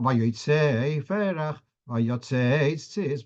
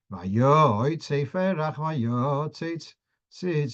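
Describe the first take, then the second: First: Vayotze chanted with stress on the final tze; slow Vayotze, weight on its last syllable; stress at word end. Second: Vayotze chanted with stress on the yo; earlier stress. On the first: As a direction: stretch the tze in each Vayotze. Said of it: "putting the stress at the end". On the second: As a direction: stretch the yo in each Vayotze. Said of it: "bring the stress to the earlier part". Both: Shown as a demonstration.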